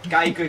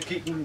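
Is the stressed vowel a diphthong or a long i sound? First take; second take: diphthong; long i. First: The vowel is the standard ij diphthong. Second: The vowel is a long i sound.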